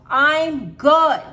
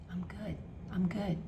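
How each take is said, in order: First: Loud "I'm good" shout; yell. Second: Soft whispered "I'm good"; quiet whisper. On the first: Coach showing how to yell at yourself, loud. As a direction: bark it at the thought. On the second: Coach fading the self-talk to a whisper. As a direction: let it fade to a whisper. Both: Shown as a demonstration. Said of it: "You have to yell at yourself".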